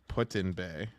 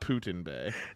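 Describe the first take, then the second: First: The first word sounds like the verb 'put in'. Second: The first word sounds like 'poo-tin'. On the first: This is the local name of the place. The speaker calls it right. "That's how the natives call it" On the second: It sounds as if the bay belongs to a politician. The speaker calls it wrong. "not ... It's not Vladimir's"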